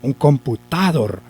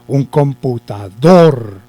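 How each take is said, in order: First: The stress falls before the last syllable. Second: The stress falls on the last syllable. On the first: The speaker calls it wrong. "¿Cierto que ahí tampoco?" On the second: The speaker calls it right. "Ahí lleva el acento"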